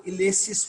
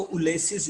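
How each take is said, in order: First: "इलेसिस" opening on a short i, not yoo; dictionary pronunciation. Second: "उलेसिस" opening on a u sound; wrong pronunciation. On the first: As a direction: say "इलेसिस" with an initial ih sound. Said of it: "यू की sound नहीं है". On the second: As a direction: say "उलेसिस" starting with u instead of i. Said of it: "यू pronounce नहीं करना". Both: Shown as a demonstration.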